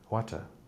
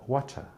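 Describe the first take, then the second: First: Said in a British accent with a clear t. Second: Said in a British accent with a clear t.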